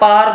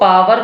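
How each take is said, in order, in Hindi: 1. इस शब्द में एक अक्षर है, 'par'। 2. इस शब्द में दो अक्षर हैं, 'pa-wer'। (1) "या फिर आप पार भी बोल सकते हैं" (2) "इसको पावर भी बोल सकते हैं, आर को थोड़ा साइलेंट रखिएगा"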